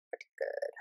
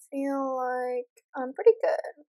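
First: Whispered to yourself, much softer. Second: Said in the usual way. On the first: Real, not acted. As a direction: whisper it like self-reassurance. Repeats phrase, then whispers it.

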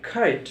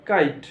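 First: "কাইট" with an aspirated kh start; corrected kite. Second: "কাইট" with a k without puff; usual wrong kite. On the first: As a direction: puff air on the k of "কাইট". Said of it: "এটার উচ্চারণ হবে". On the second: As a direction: keep the k of "কাইট" unaspirated. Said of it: "হাজার বছর ধরে করে আসছি". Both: Shown as a demonstration.

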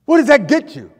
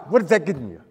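First: Higher and louder challenge; louder repeat. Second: Said in the usual way. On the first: Real, not acted. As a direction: fire the question back harder.

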